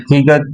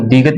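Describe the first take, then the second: First: "تیگت" with an aspirated th-like t at the start; "تیگت", first sound t-h, not d; aspirated T reading. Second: "دیگت", first sound d, not t; D reading. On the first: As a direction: say "تیگت" opening on a breath-puffed t. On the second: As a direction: say "دیگت" opening on a dental d. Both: Shown as a demonstration. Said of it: "اس کو دیگت بھی کہتے ہیں".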